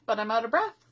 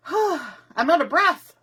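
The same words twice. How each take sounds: First: Said in the usual way. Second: Breathless, with a loud sigh first; out of breath. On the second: Real, not acted. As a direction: puff the words out between breaths.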